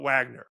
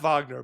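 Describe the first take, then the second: First: The name starts with a W sound. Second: The name starts with a V sound. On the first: It follows the English transliteration from Russian. "the letter that we would use then would be W" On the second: It follows the German composer's name. "I pronounce it Wagner because, you know, from the uh, the uh, composer and the German roots"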